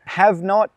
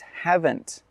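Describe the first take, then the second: First: It is said as two separate full words. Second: It is said as one shorter contracted word. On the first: "two words become one shorter word" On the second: "two words become one shorter word"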